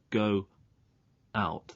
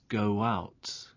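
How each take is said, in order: First: The two words are said separately, without linking. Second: A w sound links the two words smoothly. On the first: The speaker calls it wrong. "There's no linking there" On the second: The speaker calls it right. "This is called a linking w"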